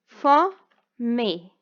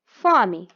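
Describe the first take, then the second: First: Fome split into fo, me, full final e; two separate beats for fome; syllable by syllable. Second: Said in the usual way. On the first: Shown as a demonstration. Teacher demonstrating syllable separation, fome with a pause after fo. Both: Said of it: "a separação das sílabas".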